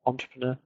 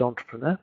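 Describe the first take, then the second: First: Entrepreneur with stress on the last syllable, French style; French final stress. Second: Entrepreneur with the last syllable stressed; stress at the end. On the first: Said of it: "which is French". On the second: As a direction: land on the final syllable of entrepreneur. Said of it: "emphasis on the last syllable". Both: Shown as a demonstration.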